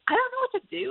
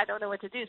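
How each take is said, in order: First: High, panicky inner voice. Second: Quiet inner worry. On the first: Leader panicking inside about what God wants. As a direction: voice the silent panic, pitched way up. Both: Retold or imitated. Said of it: "I start internally panicking".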